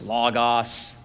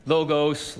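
First: Logos with short ah sounds, LAH-gahs; the other way. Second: Logos with long o sounds, LOH-gohs; one way to say it. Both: Shown as a demonstration. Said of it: "or however you wanna say it".

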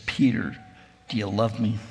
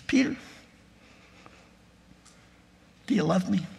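First: Lower, grave ask without humor; Jesus asking Peter lower, with no hint of humor; dead serious question. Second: Higher, lightly smiling ask; Jesus asking Peter with a hint of a smile, higher; gentle smiling question. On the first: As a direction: stare him down and ask, no humor. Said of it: "stares him dead in the eye without a hint of humor". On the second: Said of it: "a little smile on his face". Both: A narrator's reading.

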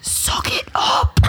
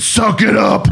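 First: Harsh whispered order. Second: Half-laughing command to toughen up; a laughing mock order to stop crying; mock stern hiss. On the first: Retold or imitated. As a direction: hiss it under your breath, half laughing. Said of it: "'Cause it was a whisper". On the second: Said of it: "this is exactly what I said".

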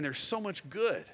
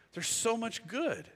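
First: Tender. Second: Almost breaking with feeling; deeply moved. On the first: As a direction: let it land gently. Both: Shown as a demonstration. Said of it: "repeated for emphasis".

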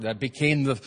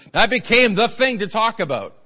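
First: Said in the usual way. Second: Higher and louder, punching became; emphatic loud restart. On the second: Acted. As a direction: hit the repeat with a shout.

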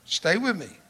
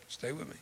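First: Said in the usual way. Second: Soft near-whisper repeat; hushed aside to the crowd; quiet repeat. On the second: Real, not acted. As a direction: draw them in softly.

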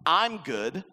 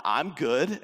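First: "I'm good" with I'm punched and rising; stress on I'm. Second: "I'm good" with good rising and stressed. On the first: Acted. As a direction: lean on "I'm", not on good. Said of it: "I alone am good". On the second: Shown as a demonstration. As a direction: lean on the word "good", rising. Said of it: "and those people are bad".

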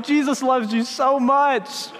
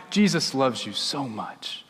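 First: High, drawn-out mock reassurance; overly sweet backpedal, pitched up and slow; scrambling to recover. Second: Low, soft and slow; gentle reassurance. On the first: Pastor trying to win back a startled child, comically reassuring. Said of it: "trying to figure out how to recover". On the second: Shown as a demonstration. Pastor giving children the simple communion words, gently. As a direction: tell a small child tenderly, unhurried.

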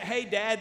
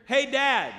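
First: Said in the usual way. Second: Put-on raised, louder child's call to a parent; something's-not-right call. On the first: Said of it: "And it was that". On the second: Five-year-old son calling dad, sounding like trouble. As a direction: imitate a kid up to something calling out. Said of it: "that you know something, something's not right".

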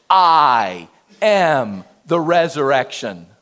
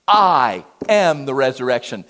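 First: Slow, weighty stress on "am" in "I am the resurrection"; emphatic. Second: "am" stressed, firm falling close; emphatic. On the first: Preacher declaring Jesus's words with heavy emphasis. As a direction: lean hard on "am", drawn out. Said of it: "it's emphatic. Underline it". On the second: Preacher repeating Jesus's claim with emphasis. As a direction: underline "am" with a strong fall. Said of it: "put exclamation points about it". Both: Shown as a demonstration.

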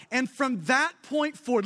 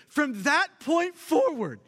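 First: Said in the usual way. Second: From that point forward, slowed with forward leaned on; slow emphasis on forward. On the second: Shown as a demonstration. Preacher slowing to stress forward to the congregation. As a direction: draw out forward to make them listen. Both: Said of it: "listen to this".

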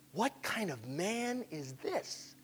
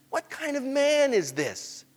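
First: Very soft, slow wonder; barely voiced, drawn-out question; hushed amazement. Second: Slow, high-pitched wonder; drawn-out, raised-pitch question at normal volume; open amazement. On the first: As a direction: breathe it slowly in awe. Amazed disciples, first hushed take. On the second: Acted. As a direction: ask it aloud, astonished. Amazed disciples, second fuller take.

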